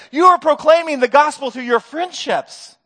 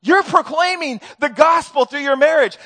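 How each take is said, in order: First: "are" leaned on as the key word; stress on are. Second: Said in the usual way. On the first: Real, not acted. Preacher insisting to the congregation, stressing "are". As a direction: hit "are" in "You are proclaiming" hard. Repeats, leaning on the verb.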